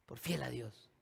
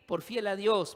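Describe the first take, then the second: First: Low, softened admission; subdued answer. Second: Raised, loud reply; emphatic answer. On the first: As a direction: repeat it quietly, deflated. José repeats answer, deflated. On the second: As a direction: answer firmly like the other inmates. José answers the inmates. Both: Acted.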